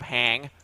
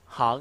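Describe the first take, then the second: First: The vowel is said the English way. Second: The vowel is said wide and open. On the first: "instead of hang" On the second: "lots of open vowels"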